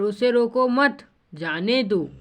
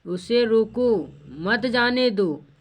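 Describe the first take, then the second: First: "उसे रोको मत" as one slow phrase, break, then "जाने दो"; pause after मत. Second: Drawn-out "उसे रोको", break, then "मत जाने दो" together; pause after रोको. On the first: Teacher contrasting two meanings, pause after मत. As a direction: run रोको into मत, pause, let "जाने दो" fall. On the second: Teacher contrasting two meanings, pause after रोको. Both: Shown as a demonstration. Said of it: "यहाँ दोनों में क्या फ़र्क है".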